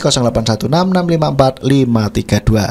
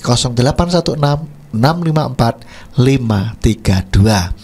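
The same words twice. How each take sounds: First: The number is read quickly. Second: The number is read slowly. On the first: The speaker calls it wrong. "Kecepatan ya" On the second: The speaker calls it right. "lebih lambat lambat lagi"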